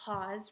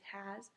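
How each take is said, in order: First: The word is said with a different vowel sound. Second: The word is said with the usual vowel sound. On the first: The speaker calls it wrong. "It's not has, right?" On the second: The speaker calls it right. "It's has"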